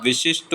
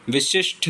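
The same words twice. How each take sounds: First: विशिष्ट ending in unaspirated "sht"; no puff on the last ट of विशिष्ट; correct final consonant. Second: विशिष्ट ending in aspirated "shth"; wrong final consonant. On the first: Teacher giving the correction, विशिष्ट with unaspirated ट. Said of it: "विशिष्ट होता है". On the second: Teacher showing the mistake, विशिष्ट with aspirated ending. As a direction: puff air on the last consonant of विशिष्ट. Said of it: "विशिष्ट नहीं होता". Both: Shown as a demonstration.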